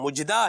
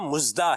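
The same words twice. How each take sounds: First: The middle consonant is a j sound. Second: The middle consonant is a z sound. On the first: "ना यहाँ जीम है" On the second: "ना यहाँ जे है"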